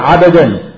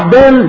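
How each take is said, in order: First: A vowel is heard between the b and d. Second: The b is followed directly by d, no vowel. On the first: The speaker calls it wrong. "لا تقل عبدان" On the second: The speaker calls it right. "قل عبدان بالسكون"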